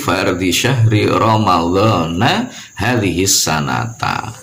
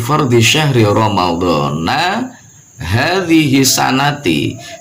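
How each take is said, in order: First: Both Ramadan and sana end in an a vowel. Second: Ramadan ends in a, sana ends in i. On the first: The speaker calls it right. "boleh juga di situ" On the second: The speaker calls it wrong. "kurang tepat"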